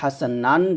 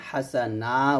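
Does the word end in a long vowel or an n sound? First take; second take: n sound; long vowel. First: The word ends with an n sound. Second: The word ends with a drawn-out vowel. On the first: "দুটো জবর আসছে" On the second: "হাসা নান জায়গায় হাসা না উচ্চারণ করব"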